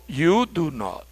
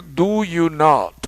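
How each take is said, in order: First: Slow "You do not" with "You" stressed; inverted order, slow. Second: Said in the usual way. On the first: Shown as a demonstration. Teacher repeating the inverted contrast for students. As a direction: say it slowly, subject first. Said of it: "ahora digo". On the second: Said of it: "En lugar de decir".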